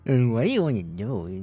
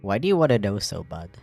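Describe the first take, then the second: First: It sounds dismissive and mocking. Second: It sounds genuinely curious.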